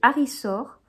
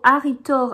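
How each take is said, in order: First: The middle consonant is a soft th-like sound. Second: The middle consonant is a hard t. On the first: The speaker calls it right. "ça se dit Harisor. Limite le T H" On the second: The speaker calls it wrong. "moi, je dis tout le temps"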